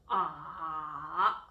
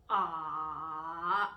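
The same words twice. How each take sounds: The two takes are said the same way.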